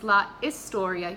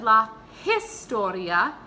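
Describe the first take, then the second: First: The H at the start of historia is silent. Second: The H at the start of historia is pronounced. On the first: The speaker calls it right. "You don't pronounce the H in Spanish, it's silent" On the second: The speaker calls it wrong. "if you pronounced, if you said la historia, that's actually incorrect"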